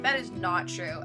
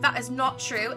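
First: It is said in the speaker's usual accent. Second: It is said in a British accent.

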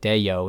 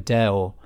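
First: A y glide is inserted between the vowels. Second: The vowels join directly with no glide. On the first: The speaker calls it wrong. "if you were just to speak it in an American accent, it kind of sounds like deyo, and you're putting a little Y sound in it" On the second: The speaker calls it right. "if you were to speak it properly, it sounds like a deo, and it goes from e to o with no y in the middle"

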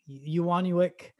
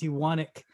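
First: The name is said with an extra middle vowel. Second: The name is said without the extra middle vowel. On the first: The speaker calls it wrong. "So I get like Unik, Iwanuick" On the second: The speaker calls it right. "You don't say it. It's Iwanek"

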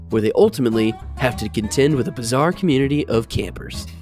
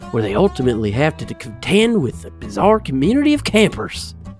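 First: It is read in the speaker's ordinary accent. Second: It is read in a Southern American accent.

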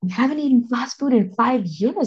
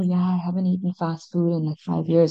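First: It is said in a happy, proud tone. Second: It is said in a casual, offhand tone.

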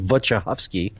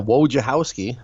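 First: The name's W letters are pronounced as V sounds. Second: The name's W letters are pronounced as W sounds. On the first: "you're going to go with Eastern Europe, which would be Wojciechowski, where you pronounce the W's like V's" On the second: "But we're American over here, so yeah"

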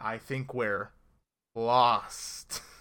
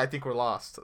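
First: The word lost is strongly emphasized. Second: The word lost is said plainly. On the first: The line winks at the show's title. The speaker calls it wrong. "in that way, like, they enunciate the lost" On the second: The line is an ordinary statement. The speaker calls it right. "That's fine"

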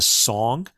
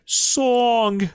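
First: It is said in the speaker's plain accent. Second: It is said in a New York accent.

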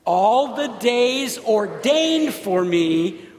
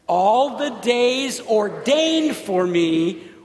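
First: The word ordained is stressed. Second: The word ordained is stressed.

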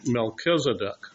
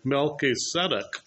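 First: The name has the common English pronunciation. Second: The name has a Hebrew-like Melchi-Tzedek pronunciation.

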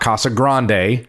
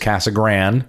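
First: Grande ends with a pronounced final vowel syllable. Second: Grande ends without a final vowel syllable. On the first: This is not how the locals say it. The speaker calls it wrong. "It's not Casa Grande" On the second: This is how the locals say it. The speaker calls it right. "The locals refer to it as Casa Grande. Just knocked off that last syllable"

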